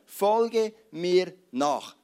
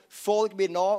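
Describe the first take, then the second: First: "Folge mir nach." said very slowly, each word set apart and weighted; "Folge mir nach." drawn out as a deliberate, solemn command. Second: Said in the usual way. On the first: Shown as a demonstration. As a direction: lay down "Folge mir nach." one heavy word at a time, x0.3 slow. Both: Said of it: "Jesus hat nur drei Wörter gesagt".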